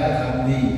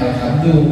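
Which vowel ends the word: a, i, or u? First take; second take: i; u. First: The word ends with an i vowel. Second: The word ends with an u vowel. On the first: The speaker calls it wrong. "bukan alhamda, alhamdi" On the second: The speaker calls it right. "bacanya alhamdu"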